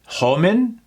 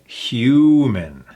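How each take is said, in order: First: The first vowel is a short uh sound. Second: The first vowel is a long ooh sound. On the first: The speaker calls it wrong. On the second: The speaker calls it right.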